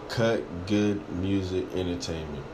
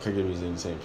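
First: The name is said slowly and clearly. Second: The name is said quickly and run together. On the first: The speaker calls it right. "I got to say it slow" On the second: The speaker calls it wrong. "when I say it fast, it sounds crazy"

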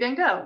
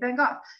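First: It is said the American way. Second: It is said the British way.

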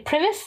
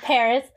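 First: The name sounds like 'Primus'. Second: The name sounds like 'Paris'. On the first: The speaker calls it wrong. "how I used to pronounce it" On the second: The speaker calls it right. "But Paris"

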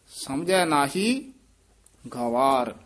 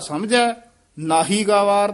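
First: The pause comes after nahi. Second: The pause comes after samjhai.

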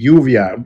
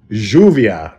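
First: It is said in a Mexican Spanish accent. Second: It is said in an Argentine Spanish accent. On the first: "we say lluvia, at least Mexicanos or Mexicans in the U.S" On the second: "But then you say lluvia"

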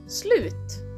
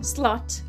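First: The word has a Swedish-style vowel sound. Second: The word has an English-style vowel sound. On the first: The speaker calls it right. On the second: The speaker calls it wrong.

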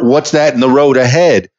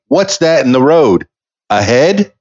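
First: The last word is said as one smooth word. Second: The last word is split into 'a' and 'head'. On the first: Something is in front of us on the road. "What's in front of us?" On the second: There is a head lying in the road. "Which means, is there a head in the road?"

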